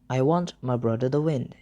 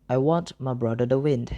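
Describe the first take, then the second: The two takes are said the same way.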